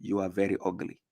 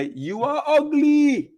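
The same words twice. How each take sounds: First: Much softer, close to her ear; soft and gentle insult; said gently. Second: High, slow shouted insult; mock shout from far away; shouting from afar. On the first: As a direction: murmur it right beside her. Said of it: "say it gently". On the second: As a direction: yell it across the room. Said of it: "and just shout". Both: Shown as a demonstration.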